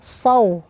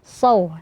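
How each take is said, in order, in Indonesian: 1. Bunyi s itu tebal. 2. Bunyi s itu tebal.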